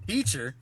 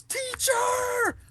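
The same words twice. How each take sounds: First: Puzzled echo of the yell; questioning, only slightly raised voice; mock disbelief. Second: High, drawn-out shout for help; loud, high-pitched mock holler; retold yell. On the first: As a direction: say it back as a baffled question. Repeats the kid's yell in disbelief. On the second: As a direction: yell it like a kid calling for the teacher. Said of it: "he stops and he yells".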